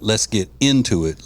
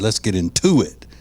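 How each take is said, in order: First: The stress falls on the first syllable of 'into'. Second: The stress falls on the second syllable of 'into'. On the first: "not not" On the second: "They put the accent on "to,""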